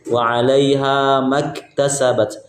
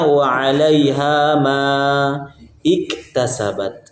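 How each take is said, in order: First: Ma runs straight into ktasabat without a break. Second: A stop after ma, then a fresh 'ik' syllable. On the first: The reading continues without stopping. "Kalau wasol mudah" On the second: The reader stops at ma and restarts. "ketika waqaf di kalimat di huruf ma"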